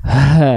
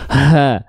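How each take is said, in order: First: The sound is forced heavily out from the chest. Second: The sound is forced heavily out from the chest.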